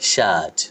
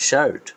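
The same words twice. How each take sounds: First: শার্ট said lower with no r; the right way, শার্ট with a long vowel and no r; British shirt. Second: শার্ট said higher with the r sounded; the wrong way, শার্ট with a clear r; wrong r-ful shirt. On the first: Teacher demonstrating the British শার্ট without r. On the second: Teacher demonstrating the rhotic শার্ট students say. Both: Shown as a demonstration. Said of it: "but এর উচ্চারণ করবেন".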